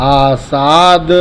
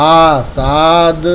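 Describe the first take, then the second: No difference in how they are said.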